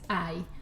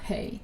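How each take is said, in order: First: It has no H sound, like eye. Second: It starts with an H sound, like hey. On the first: The speaker calls it right. "it's I. Silent H" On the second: The speaker calls it wrong. "it is not hey"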